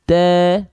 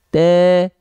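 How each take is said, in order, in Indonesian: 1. Vokalnya datar sehingga terdengar seperti e. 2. Vokalnya datar sehingga terdengar seperti e.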